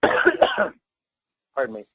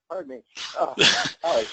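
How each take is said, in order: First: Coughing, clearing a fly from the throat; just swallowed a bug. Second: Hushed apology after coughing; just swallowed a bug. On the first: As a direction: cough it out, then excuse yourself. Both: Real, not acted. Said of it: "I think I swallowed a fly".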